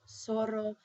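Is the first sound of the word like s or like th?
s. The z sounds like an s. This is the pronunciation used outside Spain. "you pronounce the Z like S"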